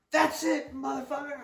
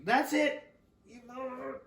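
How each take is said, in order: First: Much higher shrill mock mom outburst; mother ending the fight, imitated much higher; mom yelling. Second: Correcting the mother's quote, higher pitch; mom, retold again. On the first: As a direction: play the furious mother, cranked up high. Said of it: "my mom, your grandma, says". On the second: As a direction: redo the mother's line, higher and biting. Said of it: "or excuse me".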